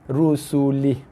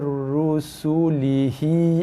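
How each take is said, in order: First: The word ends on a bare h, no vowel. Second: The word ends with a short vowel after h. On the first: The reader stops at this word. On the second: The reading continues without stopping.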